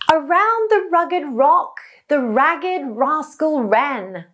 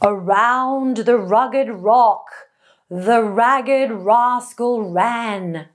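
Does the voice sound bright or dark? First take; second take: bright; dark. First: The voice is high, bright and childlike. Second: The voice is low, dark and deep. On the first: "with a very high, bright and childlike larynx" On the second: "with a low larynx on purpose"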